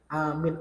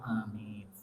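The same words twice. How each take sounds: First: The first vowel is long, the second short. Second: Both the first and second vowels are long. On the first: It means one who guards. The speaker calls it wrong. "A-nya panjang, mi-nya pendek" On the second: It means: God, grant our prayer. The speaker calls it right. "Yang benar tuh dipanjangkan semua"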